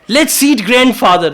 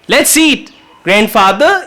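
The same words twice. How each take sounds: First: The words run together without a pause. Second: There is a pause before 'grandfather'. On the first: The grandfather is the one to be eaten. "what does that mean? Chalo, bapu nu khaiye, dadaji ko khaye" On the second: The grandfather is being invited to come and eat. "it means dadaji chalo khaye. So pause can change the meaning"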